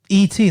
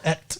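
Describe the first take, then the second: First: It is said as two separate letters. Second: It is said as one short word. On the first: "that's how you spell Et" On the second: "That's how you pronounce that those that word"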